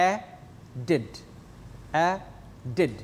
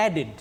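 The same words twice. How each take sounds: First: "added" broken in two, ad... ded, with a clear gap; "added" slowly split as ad-ded for counting; split into syllables. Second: Said in the usual way. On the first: Shown as a demonstration. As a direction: say "added" syllable by syllable, twice, pausing between ad and ded. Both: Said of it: "two syllables".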